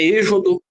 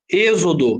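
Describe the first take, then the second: First: The x is not pronounced as a z. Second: The x is pronounced as a z sound. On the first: The speaker calls it wrong. "Não é êxodo" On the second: The speaker calls it right. "som de Z"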